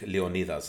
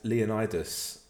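First: The name is pronounced the Greek way. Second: The name is pronounced the English way.

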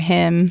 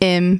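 First: The word starts with a clear h sound. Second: The word starts without any h sound.

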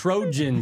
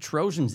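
First: The middle consonant sounds like a clear 'j'. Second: The middle consonant sounds like a soft 'sh'. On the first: "Trojans is what you would say, right?" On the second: "You're taking the J right out of the word"

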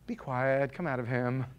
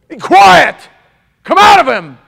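First: It is said calmly at a normal volume. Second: It is yelled loudly and forcefully. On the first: The command is given politely. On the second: The command is a forceful rebuke.

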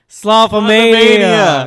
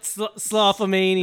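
First: The word is said noticeably louder. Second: The word is said at ordinary volume.

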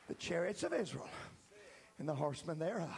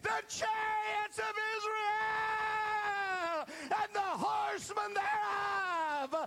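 First: It is said plainly, just repeating the words. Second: It is cried out with passion and intensity.

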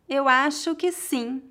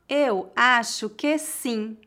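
First: The sentence is spoken at a natural pace. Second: The sentence is spoken slowly and carefully. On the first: "outra vez mais naturalmente" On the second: "Uma vez mais devagar"

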